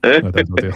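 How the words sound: It is said in an imitated English accent.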